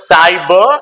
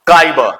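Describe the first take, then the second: First: The word begins with an s sound. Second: The word begins with a k sound. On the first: The speaker calls it right. "It is cyber" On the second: The speaker calls it wrong. "not kyber"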